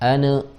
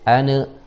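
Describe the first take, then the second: First: The n is released with a bouncing vowel. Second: The n is released with a bouncing vowel.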